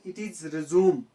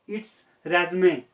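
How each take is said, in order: First: It uses the verb pronunciation of the word. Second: It uses the noun pronunciation of the word. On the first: The word is used as a verb. "When it is used as a verb" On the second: The word is used as a noun. "When it is used as a noun"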